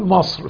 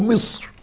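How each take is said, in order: First: The vowel after the m is not i. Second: The vowel after the m is i. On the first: This is the everyday spoken form. "احنا بنقول مصر في لغتنا الدارجة" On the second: This is the form used in the Quranic text. "النطق الصحيح لهذه الكلمة كما في كتاب الله جل جلاله مصر"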